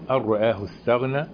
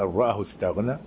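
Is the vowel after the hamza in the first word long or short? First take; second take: long; short. First: The vowel after the hamza is long. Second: The vowel after the hamza is short.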